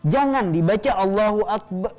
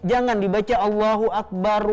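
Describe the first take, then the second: No difference in how they are said.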